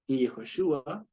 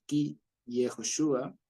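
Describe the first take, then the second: First: Ki Yehoshua repeated slowly with a rise; repeating the phrase for the class, slow and clear. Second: Ki Yehoshua said slowly, each syllable clear; teaching Hebrew to a class, slow and clear; slow Hebrew phrase. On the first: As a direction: give Ki Yehoshua again, slow. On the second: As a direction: spell out Ki Yehoshua slowly for students. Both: Shown as a demonstration. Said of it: "Aquí nosotros diríamos".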